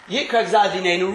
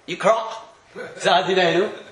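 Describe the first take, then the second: First: The first word runs into the next word. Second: The first word is cut off from the next. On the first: The phrase could sound like a different, unfavourable reading. The speaker calls it wrong. "it could read" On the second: The phrase keeps its intended meaning. The speaker calls it right. "So I'm careful nowadays. I try and say"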